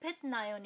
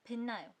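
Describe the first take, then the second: First: The first syllable ends in a t sound. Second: The first syllable ends in an n sound. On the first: The speaker calls it wrong. "आप उसे 빛나요 नहीं पढ़ोगे" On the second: The speaker calls it right. "आप उसे पढ़ोगे भिन्ना요"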